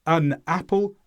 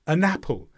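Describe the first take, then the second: First: "an apple" with "an" cut off from "apple"; separate words. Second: "an apple" as one word, a-napple; joined words. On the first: Teacher repeats the unlinked way, "an apple" apart. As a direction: leave a small break before "apple". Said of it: "Instead of saying". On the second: Teacher repeats the linking, "an apple" joined up. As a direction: slide the n of "an" into "apple". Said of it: "easy to join them together". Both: Shown as a demonstration.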